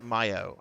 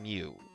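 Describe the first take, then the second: First: The name is said as two syllables, mee-oh. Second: The name is said as one syllable, mew. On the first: The speaker calls it right. "I think it's Myo. I think that's actually the proper Myo" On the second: The speaker calls it wrong. "I'm saying Mew"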